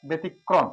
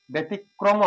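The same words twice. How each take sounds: First: ব্যতিক্রম as "betikkrom", with a doubled k and an "e" vowel. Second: ব্যতিক্রম said as written, without a double k; wrong reading. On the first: Teacher giving the correct pronunciation after the wrong one. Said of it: "ব্যতিক্রম বলি". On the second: Teacher showing a wrong pronunciation for the class to avoid. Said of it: "আমরা ব্যতিক্রম বলি না". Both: Shown as a demonstration.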